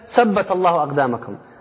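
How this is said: The first word starts with an 's' sound. The sentence means nothing, with Saturday in it. The speaker calls it wrong. "rather than saying firm, she was saying sabt"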